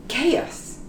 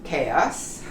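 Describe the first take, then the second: First: Chaos said kay-us, k sound, softer. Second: Chaos low and soft, kay-oss; chaos quietly. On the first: Teacher models Chaos again for students. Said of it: "it's pronounced chaos". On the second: Teacher repeats Chaos quietly for learners. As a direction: say Chaos gently with a k. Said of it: "Not hard at all". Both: Shown as a demonstration.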